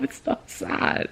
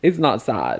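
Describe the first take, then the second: First: Breathless teary whisper. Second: Said in the usual way. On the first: Real, not acted. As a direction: whisper it to yourself while fighting tears. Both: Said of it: "I'm tearing up".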